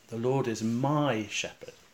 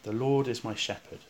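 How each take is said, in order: First: The stress is on the word my. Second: The stress is on the word shepherd. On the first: The Lord is the shepherd of me personally. "place the emphasis on the word my" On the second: The Lord is a shepherd rather than something else. "with the emphasis on the word shepherd"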